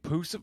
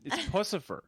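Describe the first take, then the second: First: The word opens with a clear 'pussy' sound. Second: The word ends with a clear 'cipher' sound. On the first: The speaker calls it wrong. "I've heard people call it Pussifer, and I hate that" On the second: The speaker calls it right. "the cipher part is enough to get the Lucifer"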